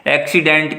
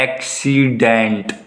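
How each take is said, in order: First: Said in the usual way. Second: "accident" very slow, in three drawn-out parts; slow teaching demo of "accident", each syllable held apart. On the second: Shown as a demonstration. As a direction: break "accident" into ऐक-सी-डेंट, stretching each vowel. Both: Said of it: "तीन sound आ रही है ना".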